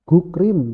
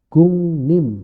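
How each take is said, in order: First: The word is heard with k and r sounds. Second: The word is heard with ng and n sounds. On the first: This is how it is written. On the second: This is how it is actually read. "ini dua-duanya berubah"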